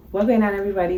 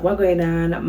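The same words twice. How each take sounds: First: A little higher, bright channel hello; upbeat vlog greeting. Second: Said in the usual way. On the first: Shown as a demonstration. Creator greeting her viewers, upbeat. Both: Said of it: "Go, just talk regular".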